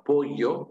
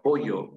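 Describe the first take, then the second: First: "pollo" pronounced with the traditional double-L sound; Castilian double L in "pollo". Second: "pollo" with LL pronounced as Y; Y sound in the middle of "pollo"; yeísmo. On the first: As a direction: say "pollo" with a Spanish LL, not a plain Y. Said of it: "es la forma con doble L". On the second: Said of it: "decimos pollo con Y". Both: Shown as a demonstration.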